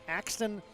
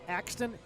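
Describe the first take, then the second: Both takes have the same delivery.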